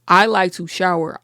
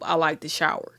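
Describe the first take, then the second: First: It is said louder. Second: It is said at normal volume.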